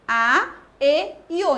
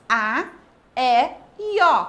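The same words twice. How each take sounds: First: A, E, O as closed vowels, "â, ê, ô". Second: A, E, O as open vowels, "á, é, ó". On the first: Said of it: "Indica o som fechado". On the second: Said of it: "Indica o som aberto". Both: Shown as a demonstration.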